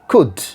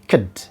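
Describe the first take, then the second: First: The vowel is full and clearly pronounced. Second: The vowel is reduced and weakly pronounced. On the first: "A strong form" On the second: "for weak form"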